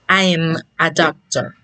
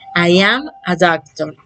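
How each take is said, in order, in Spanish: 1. 'I' y 'am' se funden en una sola sílaba corta. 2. Tanto 'I' como 'am' se pronuncian completos.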